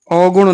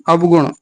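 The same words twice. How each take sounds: First: अवगुण opening on au, au-gun; wrong vowel. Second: अवगुण opening ab-gun, consonant sounded; correct syllables. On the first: Teacher rejecting an error, अवगुण said as au-gun. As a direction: merge the start of अवगुण into one au. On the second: Teacher correcting students, अवगुण said as ab-gun. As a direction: sound both vowel and consonant starting अवगुण. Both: Shown as a demonstration. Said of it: "नहीं".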